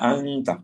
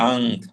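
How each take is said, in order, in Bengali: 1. শব্দটি শেষ হয়েছে 'a' স্বরধ্বনি দিয়ে। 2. শব্দটি শেষ হয়েছে 't' ব্যঞ্জনধ্বনি দিয়ে।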